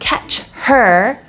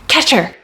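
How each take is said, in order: First: The h sound of 'her' is pronounced. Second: The h sound of 'her' is dropped. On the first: "I'm not saying catch her" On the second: "I'm removing the H sound. I'm just saying catcher"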